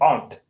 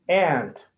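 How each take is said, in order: First: It is said with a British accent. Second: It is said with an American accent. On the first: The speaker calls it wrong. "British people are gonna say aunt" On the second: The speaker calls it right. "So let's say aunt, good"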